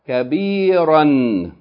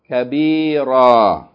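First: The word ends with a short vowel plus n. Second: The word ends with a long vowel, no n. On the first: The reading continues on to the next word. "we're going to read it in continual form" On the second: The reading stops on this word. "and then pause form"

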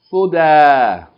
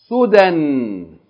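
First: The word ends with a long a vowel. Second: The word ends with an n sound. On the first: Reading stops at the word. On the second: Reading continues after the word.

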